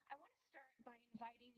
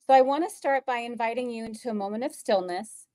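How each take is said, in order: First: Softer, faint first take; hard to hear, far from the mic; barely audible. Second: Said in the usual way. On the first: Real, not acted. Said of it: "I think your voice is very low". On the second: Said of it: "now it's better".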